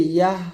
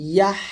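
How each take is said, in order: First: ইয়াহ ending on gentle breath; light ha. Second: ইয়াহ ending on long squeezed H; pressed ha. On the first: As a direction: release ইয়াহ without throat pressure. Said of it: "হালকা করে". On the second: Teacher comparing for learners, ইয়াহ with pressed H. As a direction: press the end of ইয়াহ through the throat. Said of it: "চাপ দিয়ে". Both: Shown as a demonstration.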